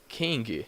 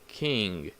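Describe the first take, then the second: First: A hard g is pronounced at the end. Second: The word ends in ng with no hard g. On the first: The speaker calls it wrong. "So never say like king" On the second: The speaker calls it right.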